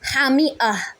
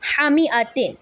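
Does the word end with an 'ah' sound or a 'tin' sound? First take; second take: ah; tin. First: The word ends with an 'ah' sound. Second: The word ends with a 'tin' sound. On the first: The reader stops at this word. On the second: The reading continues without stopping.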